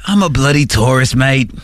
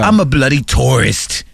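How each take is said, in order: First: Australian-sounding tourist. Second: British tourist. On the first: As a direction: lower mock Australian accent. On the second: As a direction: lower mock British accent. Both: Retold or imitated. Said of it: "like, Australian accents".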